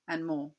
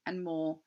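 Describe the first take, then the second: No difference in how they are said.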